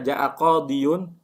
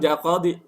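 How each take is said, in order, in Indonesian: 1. Kata itu berakhiran '-iyun' penuh. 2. Kata itu berakhiran '-i' pendek. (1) "berat nggak?" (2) "ringan nggak?"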